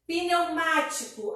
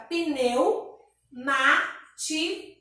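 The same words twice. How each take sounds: First: Said in the usual way. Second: Pneumático broken into pneu, má, ti, co; pneumático with a long gap after pneu; syllable by syllable. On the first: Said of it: "Então, fica pneumático". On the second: Shown as a demonstration. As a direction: say pneumático slowly in four separate beats. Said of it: "Quatro sílabas".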